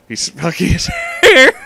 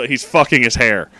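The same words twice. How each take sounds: First: Words breaking into high helpless laughter; cracking up mid-sentence, voice jumping way up; laughing. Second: Said in the usual way. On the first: Real, not acted. Reader loses it repeating the absurd line, laughing.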